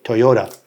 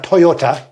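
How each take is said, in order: First: The last consonant is a D sound. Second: The last consonant is a T sound. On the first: The speaker calls it right. "with a D" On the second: The speaker calls it wrong. "not Toyota"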